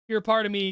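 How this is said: The pitch stays on one flat level. The speaker calls it wrong. "you're like all in the same line"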